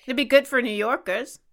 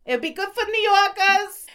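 First: Said in the usual way. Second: High-pitched mock New York accent. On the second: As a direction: ham it up like a New Yorker. Repeats line in New York accent.

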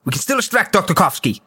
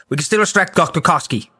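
Both takes have the same delivery.

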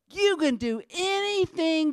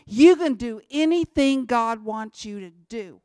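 First: Said pretty. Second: Much louder and punched, plain and blunt; forceful conviction. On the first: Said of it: "you can say it all pretty like". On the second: Speaker giving his own blunt version, loud and forceful. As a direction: hit it hard like you mean it. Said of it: "but to me". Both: Shown as a demonstration.

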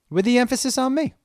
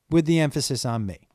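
First: Higher, with a rising lift on "me"; stress on me. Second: Said in the usual way. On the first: Shown as a demonstration. Podcast host to listeners, stressing "me" with a rising lift. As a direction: lift and lean into "me".

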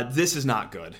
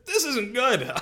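First: Said in the usual way. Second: Pitched higher, half-laughing emphasis; emphatic repeat. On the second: Shown as a demonstration. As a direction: repeat it higher for comic effect. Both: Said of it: "How about that for analysis right there?".

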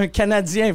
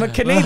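First: French pronunciation. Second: Said in the usual way. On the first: Retold or imitated. French word, then English version.

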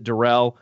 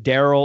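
First: Darrell said as duh-RELL; second-syllable stress. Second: Darrell said as DARR-ul; first-syllable stress. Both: Shown as a demonstration. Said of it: "How do you pronounce this guy's name".

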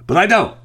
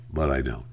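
First: Sudden loud, high "But I don't"; loud, high-pitched "But I don't"; emphatic refusal. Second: Much softer, lower "but I don't"; hushed, resigned "but I don't"; quiet resignation. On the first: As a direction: hit "don't" hard and high, like slamming the door on the temptation. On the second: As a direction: drop to a rueful near-murmur on "but I don't". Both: Acted. Resisting urge to reply.

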